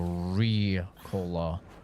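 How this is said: It starts with a full English R sound. "for them, it wouldn't be, you know, Ricola"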